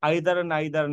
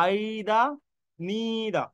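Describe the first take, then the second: First: "either, neither" rhymed, both with an EYE vowel and final r; wrong pronunciation. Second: Long, higher EYE-da for "either", NEE-da for "neither"; British pronunciation. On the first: Teacher showing students the mistake, "either, neither" as EYE-dar, NIGH-dar. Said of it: "না". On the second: Teacher correcting students, "either, neither" as drawn-out EYE-da, NEE-da. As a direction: stretch "either" to EYYYE-da and "neither" to NEEE-da. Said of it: "British pronunciation". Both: Shown as a demonstration.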